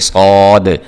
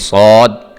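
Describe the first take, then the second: First: The final d is released with an audible bounce. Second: The final d is held back and suppressed. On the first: The speaker calls it right. "बल्कि आवाज़ को उभारना भी है आखिर पे" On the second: The speaker calls it wrong. "इसने आपने सौद करके नहीं पढ़ देना, आवाज़ को दबा नहीं देना"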